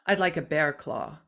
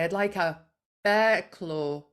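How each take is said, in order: First: It is said in a lower, flatter American accent. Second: It is said in a non-American accent. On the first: "my voice tends to drop down in register when I speak in an American accent, and it becomes more monotonal" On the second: "I'll say"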